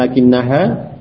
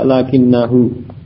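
First: The final syllable ends with an 'a' vowel. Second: The final syllable ends with a 'u' vowel. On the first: The speaker calls it wrong. "Bukan kemudian lakinnaha, tidak" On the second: The speaker calls it right. "Dhamir ha itu dengan dhammah sehingga dibaca lakinnahu"

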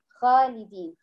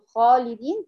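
First: The kh is light, not pressed up at all. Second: The kh is heavy, pressed up to the palate. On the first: The speaker calls it wrong. "هي كده ما ضغطتش فوق" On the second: The speaker calls it right. "بدل ما تقول خالدين"

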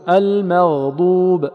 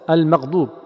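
First: The gh sound is held smoothly for full length. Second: The gh sound is rushed and cut short. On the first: The speaker calls it right. "المغضوب يعطى زمنه فقط" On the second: The speaker calls it wrong. "يقرأ بسرعة واختلاس"

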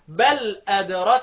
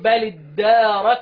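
First: The d is single, with no long vowel. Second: The d is doubled, followed by a long vowel. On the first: "التشديد خففه واحذف المد والوصل اقطعه" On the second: "احرك اللام بالكسر ... وامدد يعني مد اللي انت شدده"

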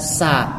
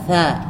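First: The consonant is an 's' sound. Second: The consonant is a 'th' sound. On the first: The speaker calls it wrong. "jangan dibaca sa" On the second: The speaker calls it right. "tha dibaca tha"

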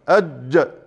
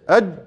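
First: The final consonant is released with a short bounce. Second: The final consonant is held with no release. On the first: The speaker calls it right. "ما ينفعش الحرف يكتمل ابدا الا لما يحصل له قلقلة" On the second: The speaker calls it wrong. "بدون قلقلة"

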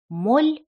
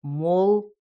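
First: The final consonant is pronounced soft. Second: The final consonant is pronounced hard. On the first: "Сначала смягчай" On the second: "а потом не смягчай"

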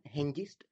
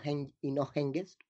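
First: The g sound is palatalized, made further forward. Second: The g sound is velar, made at the back. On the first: The speaker calls it right. "pronunciamos una G palatalizada" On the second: The speaker calls it wrong. "en lugar de una G velar"

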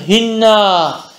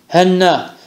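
First: The first vowel is a close 'i' sound. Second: The first vowel is an open 'a' sound. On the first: "Diye de istimali" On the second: "feth ile meşhurdur"

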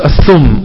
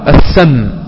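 First: The first vowel is a rounded u sound. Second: The first vowel is an open a sound. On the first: This is the most common form among people. "الأشهر بين الناس السم وهو الضم" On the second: This is the most eloquent form. "الأفصح عند العرب السم، السم هذا الأفصح"

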